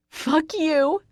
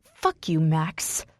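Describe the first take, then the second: First: High-pitched screamed curse. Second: Mildly spat curse. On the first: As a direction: scream it in his face. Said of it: "I scream". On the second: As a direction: spit it with contained anger. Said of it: "I spit". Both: A narrator's reading.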